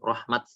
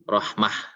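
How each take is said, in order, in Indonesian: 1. Kata ini berakhir dengan bunyi t. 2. Kata ini berakhir dengan bunyi h. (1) "maka bunyinya harusnya seperti itu, rahmat. Dibaca dengan ta yang aslinya" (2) "maka dibaca dengan ha"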